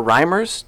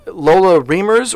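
First: "Reimers" with an eye sound, RYE-merz; alternative pronunciation. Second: "Reimers" with a long ee, REE-merz; alternative pronunciation. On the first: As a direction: say "Reimers" to rhyme with climbers. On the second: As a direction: say "Reimers" as if spelt Reemers. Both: Shown as a demonstration. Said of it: "how to pronounce her last name".

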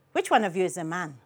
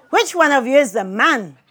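First: Low, quick, soft question; father's quick question. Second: Loud, emphatic demand to know; insistent question. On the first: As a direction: slip the question in fast and low. Father's intrusive question, first take. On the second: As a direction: put the question boldly, every word loud. Father's question repeated with relish. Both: A narrator's reading.

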